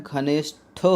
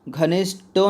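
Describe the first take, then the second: First: "घनिष्ठो" slowed, with aspirated "ṭho" ending; correct pronunciation. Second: "घनिष्ठो" with an unaspirated "ṭo" ending; wrong pronunciation. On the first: Teacher models the right word, "घनिष्ठो" with a breathy "ṭho". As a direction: say "घनिष्ठो" slowly as "ghanish-tho". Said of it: "होता है". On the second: Teacher rejects a misspelling, "घनिष्ठो" ending in hard "ṭo" without breath. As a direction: say "घनिष्ठो" as "ghanishto", higher pitched. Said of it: "नहीं होता है". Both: Shown as a demonstration.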